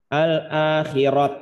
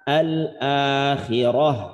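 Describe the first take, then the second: First: The word ends with a t sound. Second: The word ends with an h sound. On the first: The speaker calls it wrong. "bukan dibaca al-akhirat" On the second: The speaker calls it right. "tapi jadi hak, al-akhirah"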